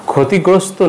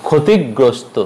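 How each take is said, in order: First: ক্ষতিগ্রস্ত with light single g. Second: ক্ষতিগ্রস্ত held on the g; ক্ষতিগ্রস্ত with a stop before "grosto"; doubled g. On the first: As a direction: say ক্ষতিগ্রস্ত as "khoti-grosto". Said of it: "নয়". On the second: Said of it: "উচ্চারণ হবে". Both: Shown as a demonstration.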